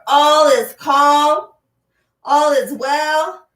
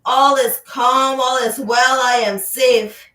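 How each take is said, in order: First: Louder, higher and slow drawn-out affirmation. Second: Firm affirmation spoken out loud. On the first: Teacher urges the class to say the affirmation louder, slow and loud. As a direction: call it out slow and loud, lifting the pitch. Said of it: "Say it louder". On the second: Teacher has the class say the affirmation out loud, firm and clear. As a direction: speak it out clearly to the room. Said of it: "Say that out loud". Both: Shown as a demonstration.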